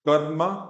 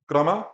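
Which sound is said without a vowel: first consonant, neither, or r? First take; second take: r; first consonant. First: The r sound has no vowel after it. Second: The first consonant has no vowel after it. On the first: "यहाँ पे जो रा है ये आधा है, इसमें स्वर नहीं है" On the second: "यहाँ पे क आधा है"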